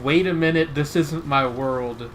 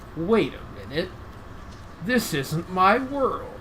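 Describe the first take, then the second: First: It is said in a disappointed tone. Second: It is said without a disappointed tone.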